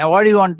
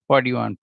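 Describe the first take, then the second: First: It is said harshly, like yelling. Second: It is said gently and kindly.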